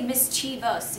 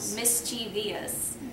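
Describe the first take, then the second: First: The word is said with three syllables. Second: The word is said with four syllables. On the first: The speaker calls it right. "you could say mischievous if you wanted to" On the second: The speaker calls it wrong. "but not mischievous"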